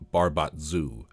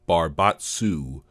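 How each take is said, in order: First: The consonant before the ending is a Z sound. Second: The consonant before the ending is an S sound. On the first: "I see no reason that the S shouldn't be a Z to get Barbatzu" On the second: "the Outer Planes Appendix says Barbatsu is pronounced Barbatsu"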